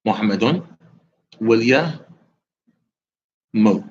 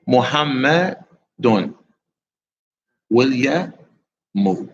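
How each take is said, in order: Both takes have the same delivery.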